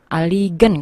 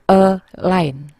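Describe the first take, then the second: First: The g is pronounced, with an extra vowel. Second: The g is silent, sounding like a-line. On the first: This is how the word would sound if read as spelled. The speaker calls it wrong. "aligen kalau di eja" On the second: This is how the word is actually read. The speaker calls it right. "kalau dalam membacanya dibaca align"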